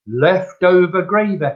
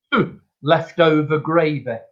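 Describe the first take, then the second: First: Mock obstinate customer repeating her verdict; retold stubborn insistence. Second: Unimpressed old customer's verdict, lightly acted; retold dubious grumble. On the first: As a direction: insist on it, refusing to budge. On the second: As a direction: hum doubtfully, then dismiss the soup. Voices a sceptical soup customer.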